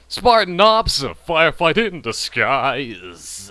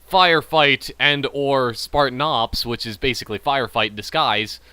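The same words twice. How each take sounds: First: Put-on announcer repeat. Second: Said in the usual way. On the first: Gamer mockingly repeating Spartan Ops line, exaggerated drawn-out voice. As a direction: punch SPARTAN OPS, then drag out DISGUISE.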